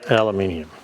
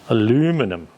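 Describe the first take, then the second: First: It is said the Australian way, aluminium. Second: It is said the American way, aluminum.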